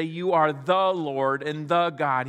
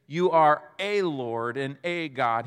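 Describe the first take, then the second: First: "the" leaned on both times; stress on the. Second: "a" said as a full "ay", punched; stress on a. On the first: Preacher showing what Thomas doesn't say, "the" stressed. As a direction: punch each "the" before Lord and God. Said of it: "He doesn't say". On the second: Preacher showing what Thomas doesn't say, "a" stressed. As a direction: hit each "a" hard as "ay". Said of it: "Thomas doesn't just say". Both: Shown as a demonstration.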